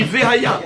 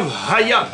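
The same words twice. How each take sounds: First: "Vehaya" with a full vowel after the V; "Vehaya" opening on a clearly voiced "vé"; pronounced Sheva. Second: "Vhaya" with no vowel after the V; "Vhaya" as v-haya, first syllable swallowed; silent Sheva. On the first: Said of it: "on dit Vehaya". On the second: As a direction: run the V straight into "haya" in "Vhaya". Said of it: "on dit pas Vhaya". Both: Shown as a demonstration.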